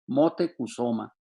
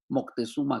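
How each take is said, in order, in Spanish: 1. El nombre se dice como Motecuzoma. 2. El nombre se dice como Moctezuma. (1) "lo pronuncio así como se pronunciaba en los tiempos prehispánicos" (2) "y no como el Moctezuma actual"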